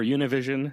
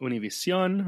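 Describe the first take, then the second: First: It is pronounced with English sounds. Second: It is pronounced with Spanish sounds.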